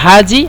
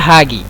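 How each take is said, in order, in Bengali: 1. মাঝের ব্যঞ্জনধ্বনিটি একটি নরম 'j' ধ্বনি। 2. মাঝের ব্যঞ্জনধ্বনিটি একটি কঠিন 'g' ধ্বনি। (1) "আহলুস সয়েদ বলে হাজি" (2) "আহলুল কহরা বলে হাগি"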